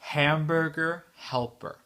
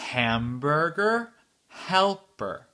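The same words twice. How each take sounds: First: The phrase is said somewhat faster. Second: The phrase is said slowly. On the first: "un peu plus vite" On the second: "la phrase entière lentement"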